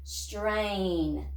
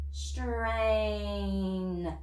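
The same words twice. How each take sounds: First: Said fast. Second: Slow stretched blending. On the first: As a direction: Strain said quickly as one word. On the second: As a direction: Strain drawn out slowly, sound by sound. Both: Shown as a demonstration. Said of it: "Say it fast".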